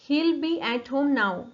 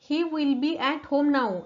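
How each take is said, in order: First: He will is contracted into one syllable. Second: He will is said as two full words.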